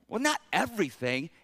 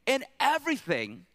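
First: "everything" questioned with a rising end; unsure, qualifying "not everything"; hedging doubt. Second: "everything" pitched high, then falling firmly; decisive, raised stress on "everything"; emphatic insistence. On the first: Acted. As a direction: tentatively push back on "everything". Acts doubt about Paul's extreme word. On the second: Shown as a demonstration. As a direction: hit "everything" high and land it. Insists on Paul's extreme word.

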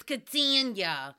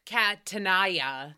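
First: Catania as ka-TAN-ya, drawn out slowly; usual pronunciation. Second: Catania as cat-a-NAI-a, slowly; misread pronunciation. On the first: Host naming a guest, Catania stretched as ka-TAN-ya. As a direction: say Catania in three syllables, ka-TAN-ya. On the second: Host showing how she reads the name, Catania as cat-a-NAI-a. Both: Shown as a demonstration. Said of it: "That's how I always see it".

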